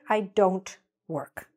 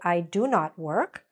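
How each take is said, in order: First: Do not is contracted into one syllable. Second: Do not is said as two full words. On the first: "but usually we'll say" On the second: "It is correct to say"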